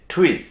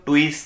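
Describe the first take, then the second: First: "টুইস" high, with a puff on the T; aspirated T. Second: "টুইস" with a hard Bengali ট; hard unaspirated T. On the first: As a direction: begin "টুইস" nearly as ঠ. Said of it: "এটা অনেকটা ঠয়ের মতো". ("টুইস"-এর ট প্রায় ঠ-এর মতো) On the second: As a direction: say "টুইস" with no puff on the T. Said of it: "অনেকে টয়ের মতো বলেন". ("টুইস"-এ শক্ত ট, শ্বাস ছাড়া) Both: Shown as a demonstration.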